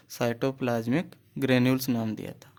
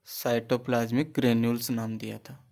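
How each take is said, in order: Both takes have the same delivery.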